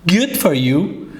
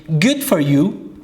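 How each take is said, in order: Both takes have the same delivery.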